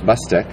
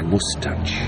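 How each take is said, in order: First: The surname is said in an anglicised way. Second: The surname is said in its original Croatian way. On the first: "the anglicised was Mustak" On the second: "but the original is Mustach"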